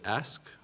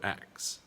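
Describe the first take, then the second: First: The s sound comes before the k. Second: The k sound comes before the s.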